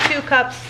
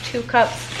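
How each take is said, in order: Both takes have the same delivery.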